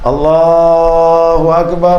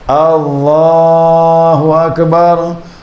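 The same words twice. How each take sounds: First: The first vowel is kept short. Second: The first vowel is drawn out long. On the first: It states that Allah is the greatest. The speaker calls it right. "Pendekkan alif pertama tu" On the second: It asks whether Allah is the greatest. The speaker calls it wrong. "Alifnya dipanjangkan"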